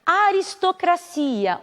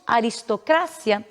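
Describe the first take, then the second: First: Aristocracia drawn out, stressed on CI; Portuguese pronunciation. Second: Aristocracia stressed on CRA; Spanish pronunciation. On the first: Teacher giving the Portuguese word, stress on CI. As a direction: slowly stretch CI in Aristocracia. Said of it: "o que em espanhol diríamos". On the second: Teacher giving the Spanish word, stress on CRA. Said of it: "em espanhol diríamos". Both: Shown as a demonstration.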